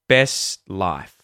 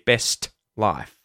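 First: The T is barely heard before the L. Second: The T sound is strongly and fully released. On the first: The speaker calls it right. "the T is kind of the tongue coming up and stopping the S sound" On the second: The speaker calls it wrong. "you won't often hear best life. We wouldn't do that. Too much effort"

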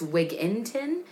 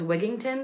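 First: The name is said without a G sound. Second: The name is said with a G sound. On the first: "There is no G in Wigginton. It's Wigginton" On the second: "But everybody says Wigginton"

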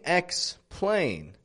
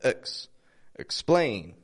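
First: The first vowel is full and clear. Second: The first vowel is reduced to a schwa. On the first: The speaker calls it wrong. "I'm not saying explain" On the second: The speaker calls it right. "but I'm using that schwa"

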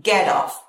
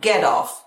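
First: The words link with a soft flapped t. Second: The words link with a soft flapped t.

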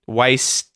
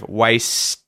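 First: The final T is held and not released. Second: The final T is audibly released. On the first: "my tongue has gone up and stopped the sound. And instead of going T, it's just stopped" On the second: "instead of"

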